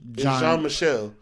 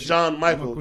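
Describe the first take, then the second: First: The name is not read in an American way. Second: The name is read in an American way. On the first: The speaker calls it right. "Not how you pronounce it" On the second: The speaker calls it wrong. "you read it as an American"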